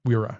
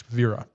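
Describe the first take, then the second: First: Wera said with an English W sound; Wera, opening on a rounded English W; wrong English pronunciation. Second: Vera said with a V sound at the start; Vera, opening on a German V; correct German pronunciation. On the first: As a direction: start Wera with a W, as spelled. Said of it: "but it's not Wera". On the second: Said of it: "it's not Wera, it's Vera". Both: Shown as a demonstration.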